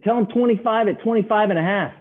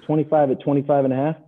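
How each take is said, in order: First: High mock trader feeding a line; imitated urgent instruction. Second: Slightly raised, questioning repeat; unsure parroting. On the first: Traders telling the newcomer what to quote, urgent mock instruction. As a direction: voice pitched way up. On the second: Retold or imitated. Newcomer repeating the quote into the phone, unsure parroting. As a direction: imitate a novice relaying words.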